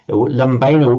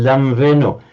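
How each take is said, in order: First: The middle consonant is a b sound. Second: The middle consonant is a v sound. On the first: This is the classical Greek pronunciation. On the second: This is the modern Greek pronunciation.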